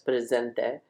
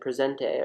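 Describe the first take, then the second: First: The word is pronounced with a Spanish accent. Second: The word is pronounced with an English-sounding accent. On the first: The speaker calls it right. "I'll say it correctly now" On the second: The speaker calls it wrong. "the way like I I didn't speak Spanish"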